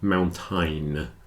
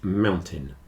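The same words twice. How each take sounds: First: The second syllable is said with a full vowel. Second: The second syllable is said short and reduced. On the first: The speaker calls it wrong. "Don't say mountain like you think it would be" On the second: The speaker calls it right. "the second syllable is contracted down"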